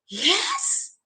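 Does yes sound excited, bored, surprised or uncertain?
surprised. It is said in a surprised way.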